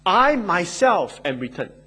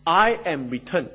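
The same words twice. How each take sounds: First: "I myself" pushed out with force; emphatic stress on "I myself". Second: Said in the usual way. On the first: Shown as a demonstration. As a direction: lean hard on "I myself". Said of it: "That is the force and the emphasis".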